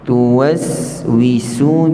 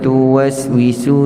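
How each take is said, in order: First: The s sound is held before the w. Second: The s sound is cut short before the w. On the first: The speaker calls it right. "sebutan safir itu lebih jelas bila kita matikan huruf tersebut" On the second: The speaker calls it wrong. "jangan baca"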